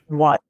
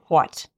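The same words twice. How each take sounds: First: The word begins with a plain w sound. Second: The word begins with a breathy hw sound. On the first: "I don't know if I say what and was that first sound any different" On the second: "some people might say more of a what"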